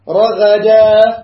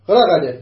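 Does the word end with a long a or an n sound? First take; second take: long a; n sound. First: The word ends with a long a vowel. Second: The word ends with an n sound. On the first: The reading stops on this word. "عوضا عن التنوين تقف هكذا" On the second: The reading continues into the next word. "لو وصلنا"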